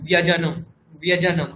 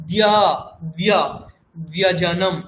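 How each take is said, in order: First: ব্যজনম with an আ sound after ব; wrong aa sound in byajanam. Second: ব্য- stressed, then ব্যজনম with no আ sound; correct byajanam. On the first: Retold or imitated. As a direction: imitate students adding আ in ব্যজনম. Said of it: "আ শোনা যাচ্ছে". (ভুল ব্যজনম, আ শোনা যাচ্ছে) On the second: Shown as a demonstration. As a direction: keep ব্য short, no আ. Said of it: "আ যেন না শোনা যায়". (ঠিক ব্যজনম, আ ছাড়া)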